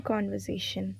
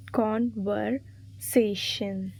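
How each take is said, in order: First: Said in the usual way. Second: "Conversation" very slowly, broken into syllables; stressed-word demo. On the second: Shown as a demonstration. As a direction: spell out the syllables of "Conversation" by ear, with gaps. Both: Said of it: "Select the correctly spelled or stressed".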